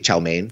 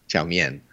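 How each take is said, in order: First: The second word sounds like 'main'. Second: The second word sounds like 'mee-en'. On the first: The speaker calls it wrong. "Americans say main, like you say chow mein" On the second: The speaker calls it right. "But it's actually lo mien, chow mien"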